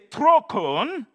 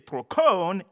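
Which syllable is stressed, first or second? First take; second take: first; second. First: The stress is on the first syllable. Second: The stress is on the second syllable. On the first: It means course. "If you put the accent on the first, you say trokon" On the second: It means wheel. "If you put the accent on the second syllable, you say trokon"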